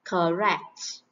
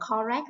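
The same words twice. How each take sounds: First: "Correct" with a short uh in the first syllable; short schwa. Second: "correct" with a full O in the first syllable; mispronounced first vowel. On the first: Teacher modelling the right way, "Correct" with a short schwa. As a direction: say "Correct" as kuh-RECT. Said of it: "Ơ ngắn nè". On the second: Teacher showing a common mistake, "correct" with a full O. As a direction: say "correct" wrongly as kaw-rect. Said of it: "đọc từ này là correct là sai nhé". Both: Shown as a demonstration.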